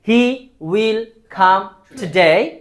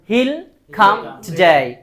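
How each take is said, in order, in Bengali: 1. Will আলাদা একটি পূর্ণ শব্দ হিসেবে বলা হয়। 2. Will ছোট হয়ে he-এর সাথে জুড়ে যায়।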